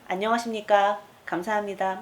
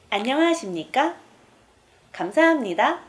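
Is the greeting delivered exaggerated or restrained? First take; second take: restrained; exaggerated. First: It is said in a calm, restrained, composed way. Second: It is said in an exaggerated, showy pageant style.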